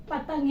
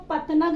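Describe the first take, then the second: First: "पतंग" with a nasal ng, no "na" syllable; poprawna wymowa. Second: "पतनग" with a full separate "na" syllable; błędna wymowa. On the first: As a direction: send the n of "पतंग" into the nose. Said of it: "क्या बोलेंगे?". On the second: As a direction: sound out the n in "पतनग" as its own syllable. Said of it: "नहीं बोलेंगे हम". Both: Shown as a demonstration.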